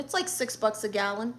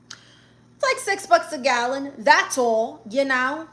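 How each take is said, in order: First: Said in the usual way. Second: Higher, louder mock-casual repeat; sarcastic emphasis. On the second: Real, not acted. Aunt telling viewers about California gas prices, loudly sarcastic. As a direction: toss it off as if it were nothing.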